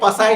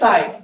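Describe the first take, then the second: First: It starts with a p before the s. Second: It starts with an s sound, no p. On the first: The speaker calls it wrong. "पसाई नहीं" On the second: The speaker calls it right. "पी silent है"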